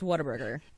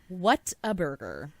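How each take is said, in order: First: The three words run together quickly as one. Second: The three words are said slowly and separately.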